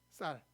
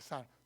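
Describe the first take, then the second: First: The word starts with a tense, tight s sound. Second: The word starts with a plain, lax s sound. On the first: This is the standard way of saying it. "살은 이게 살이고 쌀" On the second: This reveals a Gyeongsang regional accent. "우리는 이 쌀 발음을 신경 안 쓰면 어떻게 이야기합니까?"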